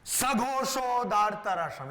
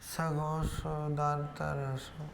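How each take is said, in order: First: The phrase is shouted loudly and forcefully. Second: The phrase is said softly, without force. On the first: The speaker calls it right. "like that... it should be very strong sound" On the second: The speaker calls it wrong. "Not like that"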